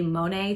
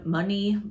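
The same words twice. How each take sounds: First: "Monet" with an "ay" ending; first guess at the name, "Monet" rhyming with "day"; French-style pronunciation. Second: "Money" with an "ee" ending; second try at the name, "Money" ending in "ee"; alternative pronunciation. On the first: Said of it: "or Mon-, Money". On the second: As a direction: say "Money" like the word for cash. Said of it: "It's, it's not money". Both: Shown as a demonstration.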